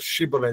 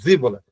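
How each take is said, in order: First: The word begins with an sh sound. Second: The word begins with a z sound. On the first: The speaker calls it right. "eles não conseguiam pronunciar Shibboleth" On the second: The speaker calls it wrong. "eles falavam Ziboleth"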